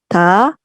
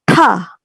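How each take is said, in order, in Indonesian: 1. Konsonan ini dilepas tanpa hembusan napas. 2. Konsonan ini dilepas dengan hembusan napas. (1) "itu biasa" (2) "itu ada heh-nya"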